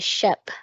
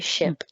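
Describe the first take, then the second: First: The vowel sounds like the one in 'bet'. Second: The vowel sounds like the one in 'bit'. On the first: Some people in certain regions say it this way. "Some people say" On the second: This is how the speaker says it. "but I say"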